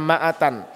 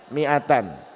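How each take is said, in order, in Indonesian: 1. Vokal pertama berbunyi 'a'. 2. Vokal pertama berbunyi 'i'. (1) "Bukannya ma'atan" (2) "mi'atan yang betul"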